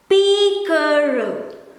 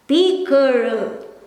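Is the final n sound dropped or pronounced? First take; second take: dropped; dropped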